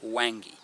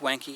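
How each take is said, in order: First: The middle consonant sounds like a soft 'ng'. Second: The middle consonant sounds like a hard 'nk'. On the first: The speaker calls it right. "it's Wangy" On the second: The speaker calls it wrong. "It's not Wanky"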